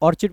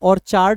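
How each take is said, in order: First: The second syllable has a reduced 'id' sound. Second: The second syllable has a full 'ard' sound. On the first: The speaker calls it right. "इसको ऑर्चिड पर पढ़ते हैं" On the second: The speaker calls it wrong. "इसमें ऑर्चार्ड नहीं पढ़ते हैं"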